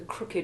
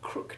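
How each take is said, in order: First: The ed ending is sounded as a separate syllable. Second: The ed ending is silent, one syllable only. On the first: It describes something bent. "the adjective crooked retains its old sounded ed ending" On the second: It says someone bent a finger. "the silent e in the past tense ending"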